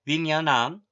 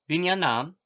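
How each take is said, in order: No difference in how they are said.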